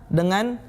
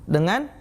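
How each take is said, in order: Both takes have the same delivery.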